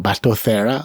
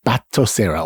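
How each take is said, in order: First: Batocera tried the other way, as a foreign name; alternative pronunciation guess. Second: Batocera tried out as a first guess; first pronunciation guess. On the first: Unsure host offers a second option, alternative foreign-sounding pronunciation. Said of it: "sounds foreign". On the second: Unsure host offers listeners a name he read, first pronunciation guess. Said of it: "if that's how you pronounce it". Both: Shown as a demonstration.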